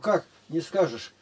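It is pushed out as a detached fragment. The listeners will not understand the words. The speaker calls it wrong. "такими отрывками выталкиваешь"

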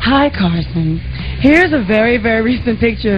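It is read in a put-on, imitated voice.

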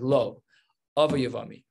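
There is a pause after the word lo.

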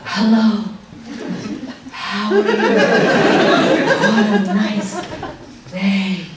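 It is said in a hot, breathy voice.

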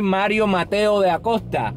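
The name is said with a Spanish accent.

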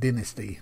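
The word is said the British way. "over here, we call it dynasty"

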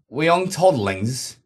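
It is said in a put-on British accent. The speaker calls it right.

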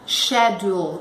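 It is said with a British pronunciation.

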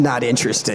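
It is said with big, exaggerated emotion. The speaker calls it wrong. "that's way too much"

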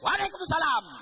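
It is said in a firm, curt voice.

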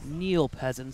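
It sounds soft, like a polite request. The speaker calls it wrong. "It's like you're asking them"

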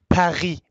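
The name is pronounced in a French way. The speaker calls it right. "In French, we say Paris"

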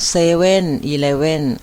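It is said with a Thai accent. The speaker calls it wrong. "ที่เราเรียกกัน"

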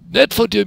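It is said in an old operatic voice. The speaker calls it wrong. "Das war so eine alte Operstimme"

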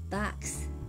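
The vowel is an open 'ah' sound.

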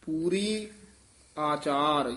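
The two words are said separately. The speaker calls it right. "ਨਖੇਰ ਕੇ ਪੜ੍ਹਨਾ"

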